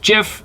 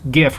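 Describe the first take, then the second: First: The word begins with a soft G sound. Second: The word begins with a hard G sound. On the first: The speaker calls it wrong. "some people say it's GIF" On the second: The speaker calls it right. "it's GIF with a hard G"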